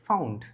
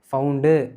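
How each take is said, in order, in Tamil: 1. வார்த்தை கடைசி மெய்யெழுத்திலேயே கூர்மையாக முடிகிறது. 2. கடைசி மெய்யெழுத்துக்குப் பின் ஒரு கூடுதல் உயிர் ஒலி சேர்க்கப்படுகிறது.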